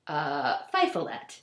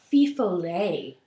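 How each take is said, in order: First: The word is pronounced with an English-style reading. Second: The word is pronounced with a French-style reading. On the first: The speaker calls it wrong. "I had been pronouncing this wrong in my head" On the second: The speaker calls it right. "it's actually pronounced Fifolet"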